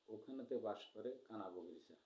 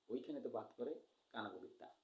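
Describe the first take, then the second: First: It is said in the speaker's normal adult voice. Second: It is said imitating a small child's lisping speech.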